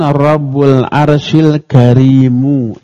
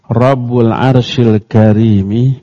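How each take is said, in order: First: The last word ends with a u vowel. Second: The last word ends with an i vowel. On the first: The word 'noble' describes the Lord. "dibaca mu" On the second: The word 'noble' describes the throne. "Dengan dikasrohkannya huruf mi pada al-karim"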